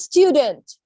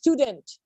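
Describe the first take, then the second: First: It is said with an American accent. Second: It is said with a British accent. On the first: "it sounds like a student in America" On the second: "If you talk about a British, it sounds like a student"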